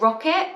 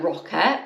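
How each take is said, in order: First: 'rocket' said oddly, pitched high and rising; odd pronunciation. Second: 'Rocket' lower, as a puzzled question; questioning echo. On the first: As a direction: say 'rocket' high, in an unfamiliar accent. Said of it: "Why would I say that like that". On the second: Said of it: "and I was like". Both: Retold or imitated.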